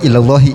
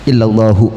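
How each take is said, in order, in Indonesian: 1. Kata itu diakhiri dengan vokal i. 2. Kata itu diakhiri dengan vokal u. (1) "Yang enggak boleh illallahi, salah" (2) "Kalau hu berarti illallahu"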